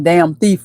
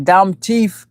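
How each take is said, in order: First: Said in the usual way. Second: "Dumb teeth" as dom teef, imitated Jamaican accent. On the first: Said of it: "dumb is like, you know, damn". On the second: Quoting Red's damn thief, "Dumb teeth" in Jamaican accent. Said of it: "He was like".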